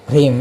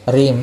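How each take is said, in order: No difference in how they are said.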